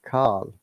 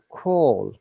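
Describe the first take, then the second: First: The vowel is a more open American ah sound. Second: The vowel is a rounded British aw sound. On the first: "they said call" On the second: "we said call"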